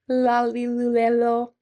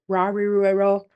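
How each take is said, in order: First: The consonant is a clear L sound. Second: The consonant is a heavy English-like R. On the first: "not singing" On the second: "Not Scooby-Doo"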